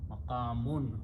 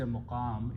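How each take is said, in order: First: The word ends with an added 'un' sound. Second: The word ends on the 'm' sound. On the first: The speaker calls it right. "Arabic word is maqamun" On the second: The speaker calls it wrong. "In Urdu we pronounce it wrong. We say maqam"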